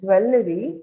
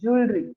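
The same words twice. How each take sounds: First: The word does not begin with 'jew'. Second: The word begins with a 'jew' sound. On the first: The speaker calls it wrong. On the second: The speaker calls it right.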